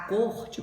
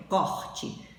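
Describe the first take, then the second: First: "corte" with a closed O, like côrte. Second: "corte" with an open O, like cÓrte. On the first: Teacher naming the royal court, corte with closed O. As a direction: stress "corte" with a tight, closed O sound. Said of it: "o O da sílaba tônica é pronunciado com som fechado". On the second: Teacher showing the cutting sense of corte, open O. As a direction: stress "corte" with a wide-open O sound. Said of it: "o O da sílaba tônica é com som aberto". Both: Shown as a demonstration.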